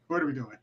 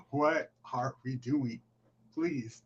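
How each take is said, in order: First: Said in the usual way. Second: Slow, quiet "What are we doing?"; hushed, deliberate "What are we doing?"; slow exasperation. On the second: Real, not acted. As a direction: draw out "What are we doing?" in weary disbelief. Repeats the question, more deliberately.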